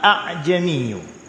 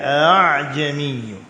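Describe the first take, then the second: First: The second glottal stop is said fully. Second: The second glottal stop is softened. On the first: "asal kalimah itu a a" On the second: "Hamzah kedua diringankan"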